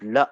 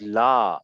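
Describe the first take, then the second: First: La cut short, with a brief vowel; correct short la. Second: La held long, as a stretched vowel; wrong long la. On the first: Teacher shows students the right reading, la kept short. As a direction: say la quickly, without holding the vowel. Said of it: "This is la". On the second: Teacher shows students how not to read it, la wrongly lengthened. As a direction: draw out la with a long open vowel. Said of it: "Don't read it as la". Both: Shown as a demonstration.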